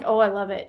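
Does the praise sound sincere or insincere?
insincere. The praise sounds offhand and insincere.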